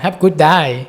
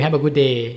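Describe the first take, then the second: First: It is said in a broad Australian accent. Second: It is said in a neutral, non-Australian accent.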